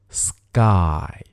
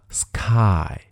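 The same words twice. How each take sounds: First: The sound after s is a g sound. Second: The sound after s is a k sound. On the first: The speaker calls it right. "但实际上是sky" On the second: The speaker calls it wrong. "如果按照拼写呢，就念成了sky"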